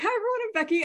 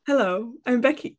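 First: It is said with lively, high energy. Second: It is said quietly, cool and composed.

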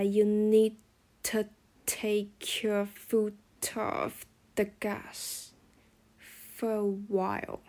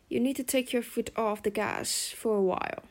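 First: It is said slowly, with linked sounds. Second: It is said at normal, faster speed.

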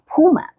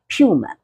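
First: It is said with an American pronunciation. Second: It is said with a British pronunciation. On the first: "高曼老师的发音呢是美式发音" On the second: "如果是英式发音的话呢，它会念成Puma"

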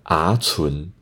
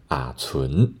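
First: Both syllables rise in pitch. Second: The first syllable drops low before a rise. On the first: The speaker calls it wrong. "北四线腔的规则是不能讲啊存，啊存太难讲了" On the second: The speaker calls it right. "往上升的字遇到后面也是往上升的时候，就要变低下来，所以要讲啊存"

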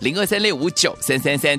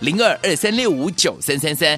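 First: The number is read at normal speed. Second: The number is read more slowly.

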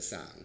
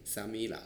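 First: It is said fast, merged into one syllable. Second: It is said slowly as three separate syllables.

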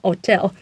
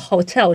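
First: The word begins without an h sound. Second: The word begins with an h sound.

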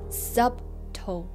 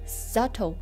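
First: A b sound is heard in the middle. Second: No b sound is heard in the middle. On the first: The speaker calls it wrong. "不要读成subtle" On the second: The speaker calls it right. "b 在这里默默地存在着，不发音"

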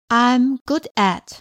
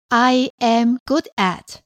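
First: I and am are joined into one syllable. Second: I and am are said as two separate words.

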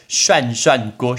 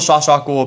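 First: The first syllables sound like shuan, with n. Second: The first syllables sound like shua, without n. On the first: The speaker calls it right. "拜托，涮涮锅" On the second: The speaker calls it wrong. "不要说刷刷锅"

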